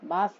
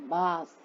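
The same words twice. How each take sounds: First: The final S sound is short. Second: The final S sound is drawn out. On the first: The speaker calls it wrong. "बास नहीं" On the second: The speaker calls it right. "देखो थोड़ा खिंचता है क्योंकि double है ना"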